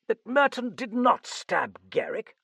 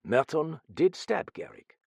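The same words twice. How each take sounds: First: High, loud question on "did not stab"; incredulous cry. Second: "did" lifted in firm contradiction; stress on DID. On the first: Sir John challenging the Frenchman's claim, incredulous. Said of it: "Sir John cried". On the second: Frenchman correcting Sir John, "did" stressed firmly. Detective corrects him emphatically. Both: A narrator's reading.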